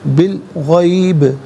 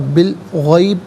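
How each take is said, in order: First: The final b bounces with an echoing release. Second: The final b stops flat with no echo. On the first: The speaker calls it right. "आवाज़ लौटती भी महसूस होनी चाहिए, यानी कलकला होगा" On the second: The speaker calls it wrong. "गलत"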